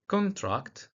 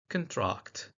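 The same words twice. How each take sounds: First: The stress is on the first syllable. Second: The stress is on the second syllable. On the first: It is used as a noun. "in nouns, uh, contrast, stress on the first syllable" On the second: It is used as a verb. "while in verbs, the stress on the second syllable"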